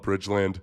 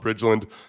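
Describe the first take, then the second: First: The last syllable is a full 'land'. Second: The last syllable is reduced, like 'lund'. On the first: This is how some people say it. "Some people might call it Bridgeland" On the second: This is how most people say it. "I have a suspicion that most people call it Bridgeland"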